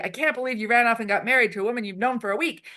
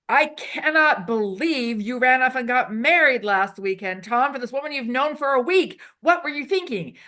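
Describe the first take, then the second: First: Said in the usual way. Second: Hammed-up disbelief, a little louder and higher; over-exaggerated emotion. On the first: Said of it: "But if I say". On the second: Shown as a demonstration. Improv teacher showing the host a big, hammed-up outburst. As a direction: play the scene partner big and shocked. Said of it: "We use over-exaggerated, um, emotions".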